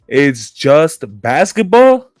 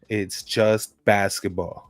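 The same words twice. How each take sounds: First: It is said with more force and attitude. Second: It is said plainly, without much force.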